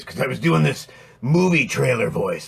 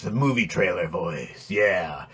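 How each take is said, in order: First: Said in the usual way. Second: Low, soft, dramatic trailer narrator; movie trailer voice. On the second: Shown as a demonstration. Demonstrating to viewers the voice that strained his throat, low movie trailer voice. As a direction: drop into the epic trailer announcer.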